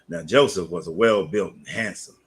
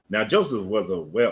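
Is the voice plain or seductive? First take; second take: seductive; plain. First: It is read in a sexy, seductive voice. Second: It is read in a plain, normal voice.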